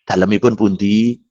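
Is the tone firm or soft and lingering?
firm. It is said plainly, firmly and without lingering. It sounds ordinary and businesslike. The speaker calls it right. "Biasa yang tegas"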